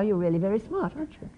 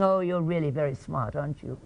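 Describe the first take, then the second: First: Said in the usual way. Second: Sarcastic. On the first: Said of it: "And the words are". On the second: Shown as a demonstration. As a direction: say it so it means the opposite. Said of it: "What I'm communicated with the feeling".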